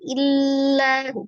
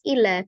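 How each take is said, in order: First: The L is pressed down too hard. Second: The L is released too loosely. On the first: "jangan terlalu ditekan" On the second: "jangan juga terlalu dilepas"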